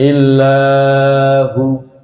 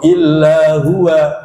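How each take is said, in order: First: The final vowel is cut short. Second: The word ends with an added 'wa' syllable. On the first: "Ada yang baca pendek illa hu. Salah" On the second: "masih ada yang baca wakafnya illa huwa begitu. Salah"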